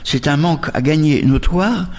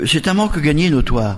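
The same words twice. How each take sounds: First: The phrase is spoken more slowly and gently. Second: The phrase is spoken at a normal pace.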